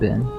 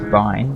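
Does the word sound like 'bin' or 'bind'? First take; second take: bin; bind. First: The vowel is short, rhyming with 'tin'. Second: The vowel is long, rhyming with 'fine'. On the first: It sounds like a trash can. "I just call it bin" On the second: It is short for binary. "people who would say it's bind because technically it is binary"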